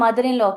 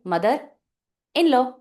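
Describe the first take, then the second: First: The words are said together in one flow. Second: The words are said separately with breaks.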